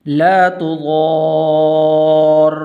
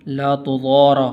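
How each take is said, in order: First: Slow ला तुदार with the doubled रा held and stressed; slow, attentive model recitation of ला तुदार; careful model reading. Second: ला तुदारा with an extra आ after the रा; demonstrating the error of saying तुदारा instead of तुदार; wrong added vowel. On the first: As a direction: dwell on the shadda in तुदार. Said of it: "इस लफ्ज़ को आपने तवज्जो के साथ सुनते हैं". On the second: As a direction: quickly add a vowel to the end of तुदारा as the mistake. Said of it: "ऐसे नहीं पढ़ना". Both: Shown as a demonstration.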